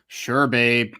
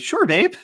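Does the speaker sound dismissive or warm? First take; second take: dismissive; warm. First: It sounds flat and dismissive. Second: It sounds warm and sincere. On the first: The speaker is brushing the partner off. The speaker calls it wrong. "sometimes it's like" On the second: The speaker is genuinely supporting the partner. The speaker calls it right. "but then it actually needs to be"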